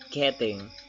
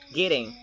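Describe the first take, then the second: First: The middle consonant sounds like a clear t. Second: The middle consonant sounds like a soft d. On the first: The speaker calls it wrong. "not not getting" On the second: The speaker calls it right. "Perhaps it sounds like kidding"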